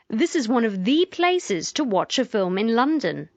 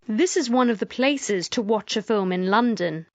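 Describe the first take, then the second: First: The word 'the' is strongly emphasized. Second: The word 'the' is said without emphasis.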